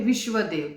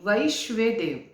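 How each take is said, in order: First: The first syllable has the vowel sound 'vi'. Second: The first syllable has the vowel sound 'vai'. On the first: The speaker calls it wrong. "कुछ लोग इसका गलत pronounce करते हैं" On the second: The speaker calls it right. "इसका pronounce है वैश्वे देव"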